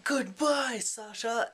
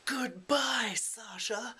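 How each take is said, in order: First: High, loud goodbye called out; mock farewell shout. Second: High goodbye, then Sasha whispered; goodbye then hushed name. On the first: Fyedka calls a loud mock goodbye to Sasha. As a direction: fling the goodbye at him. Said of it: "Fyedka's like". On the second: Retold or imitated. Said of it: "then Fyedka goes".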